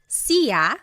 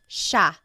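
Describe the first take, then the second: First: The word is said as two separate syllables. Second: The word is said as one blended syllable. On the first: The speaker calls it wrong. "It looks like it should be pronounced siya" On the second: The speaker calls it right. "it's actually pronounced siya"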